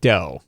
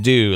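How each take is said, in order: First: The word rhymes with 'Nintendo', an 'oh' vowel. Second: The word rhymes with 'Scooby-Doo', an 'oo' vowel. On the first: "like Nintendo" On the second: "like Scooby-Doo"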